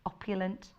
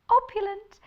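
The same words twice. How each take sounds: First: Said in the usual way. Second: Pitched up high, polished telephone manner; a lifted, very proper phone-greeting voice; posh phone voice. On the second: Shown as a demonstration. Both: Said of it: "Especially with your phone voice".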